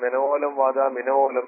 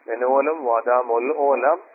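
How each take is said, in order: First: The last part is run together as minolam. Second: The last part is split into mol olam. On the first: The speaker calls it wrong. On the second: The speaker calls it right.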